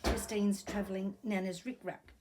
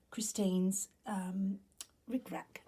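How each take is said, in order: First: Said in the usual way. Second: Whispery voice cutting out; throat catching mid-phrase. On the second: Real, not acted. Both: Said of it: "Excuse me".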